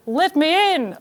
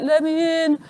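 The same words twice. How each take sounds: First: Higher, put-on Australian husband; mock Australian call, pitched up; Australian accent. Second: Higher, drawn-out call in mock husband voice; husband calling from outside the room, not in his accent; mock plea, pitched up; impersonated husband. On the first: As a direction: imitate an Australian husband calling out. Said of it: "he's Australian. He's like". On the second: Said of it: "that isn't how he talks, he's Australian".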